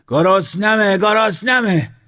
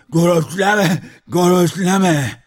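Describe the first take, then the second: First: Loud, very high hungry yell; shouting. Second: Loud, high slurred yell; mouth full of water. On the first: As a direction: cry out twice, pushing higher. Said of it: "موسرخه داد زد". (داد زدن از گرسنگی) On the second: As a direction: shout through a mouthful of water, consonants gurgled. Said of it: "آب دهانش را پر کرده بود جواب داد". (فریاد با دهان پر از آب) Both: A narrator's reading.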